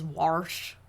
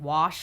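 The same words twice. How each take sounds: First: The word is said with an R sound. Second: The word is said without an R sound. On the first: "Puts an R in wash" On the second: "instead of saying wash"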